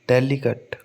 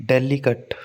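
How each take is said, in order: No difference in how they are said.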